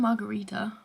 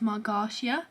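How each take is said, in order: First: The name ends with the sounds 'rita'. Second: The name ends with the sounds 'tia'. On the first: The speaker calls it right. "There we go, it's Master and Margarita" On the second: The speaker calls it wrong. "I've been reading it as Margartia, as in like T I A"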